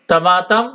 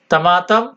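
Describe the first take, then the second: No difference in how they are said.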